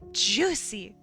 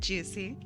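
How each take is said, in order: First: It is said in an imitated, put-on voice. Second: It is said in the speaker's ordinary voice. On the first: The speaker calls it right. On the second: The speaker calls it wrong.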